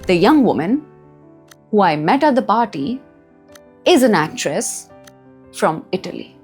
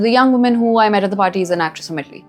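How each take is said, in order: First: It is split by four pauses between groups. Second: It runs straight through without any pauses. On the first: Each piece of information lands with the listener. The speaker calls it right. "Four thought groups, four pauses" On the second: The information blurs together and does not land. The speaker calls it wrong. "Nothing lands, everything blurs"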